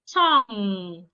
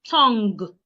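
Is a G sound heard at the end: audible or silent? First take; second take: silent; audible. First: It ends on ng with no G heard. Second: A G sound is heard at the end. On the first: The speaker calls it right. "You can have tongue" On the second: The speaker calls it wrong. "not tongue"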